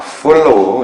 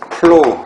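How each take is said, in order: First: It starts with a real f sound. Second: It starts with a p-like sound. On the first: "발음할 때만큼은 아, 아 follow 이렇게 합니다. 윗이빨로 아랫입술을 살짝 깨무셔야 돼요" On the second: "표기할 때 이 flow 이렇게 표현한다고"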